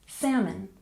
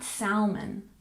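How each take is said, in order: First: The word is said without an L sound. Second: The word is said with an L sound. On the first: The speaker calls it right. "we don't pronounce the L in the word. We say salmon" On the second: The speaker calls it wrong. "not salmon"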